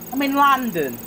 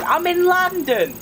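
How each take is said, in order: First: Said in the usual way. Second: High, slow and stretched; sing-song answer to chat; drawn-out high take. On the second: Shown as a demonstration.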